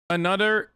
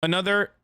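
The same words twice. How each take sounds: The two takes are said the same way.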